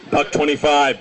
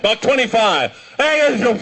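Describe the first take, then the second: First: Said in the usual way. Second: Raised-pitch, exasperated retelling; insistent repeat. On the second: Retold or imitated. Bus fare repeated to drunk passengers, higher and insistent.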